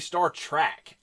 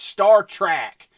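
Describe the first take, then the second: First: The second word is said like 'track'. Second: The second word is said like 'trek'. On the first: The speaker calls it wrong. "I always want to say Star Trek. ... My Southern heritage comes out as T R A C K" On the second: The speaker calls it right. "It's Star Trek"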